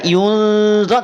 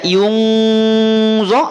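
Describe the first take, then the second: First: The nasal hum is weak and light. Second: The nasal hum is strong and deep. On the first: "tidak juga dibaca yunzo" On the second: "Tidak dibaca yungzo"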